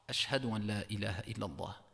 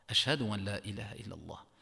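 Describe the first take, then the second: The two takes are said the same way.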